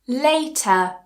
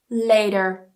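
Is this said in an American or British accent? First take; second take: British; American. First: It has a clear T and no R. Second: It has a flapped T and an R.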